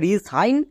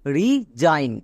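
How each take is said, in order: First: The middle consonant is an s sound. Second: The middle consonant is a z sound. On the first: The speaker calls it wrong. "একে আমরা রি সাইন বলতে পারবো না" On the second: The speaker calls it right. "এস এর জন্য বর্গীয় জো উচ্চারণ করব"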